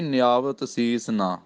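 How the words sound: A short pause comes after the word ਨਾ. The word ਨਾ wrongly joins the preceding phrase and distorts the meaning. The speaker calls it wrong. "ਇੰਜ ਨਹੀਂ ਕਹਿਣਾ, ਫਿਰ ਅਰਥ ਦਾ ਅਨਰਥ ਹੋ ਜਾਂਦਾ"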